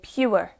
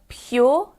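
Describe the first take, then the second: First: The ending is said as an ewer sound. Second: The ending is said as a yaw sound. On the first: "for others it could be a ewer" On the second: "that U R E is a yaw sound for me"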